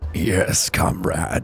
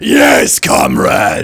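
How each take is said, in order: First: It is said in a restrained evil voice. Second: It is an over-the-top Soldier seventy-six voice.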